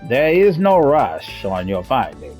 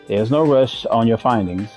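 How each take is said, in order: First: It is read in a put-on character voice. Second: It is read in an ordinary natural voice.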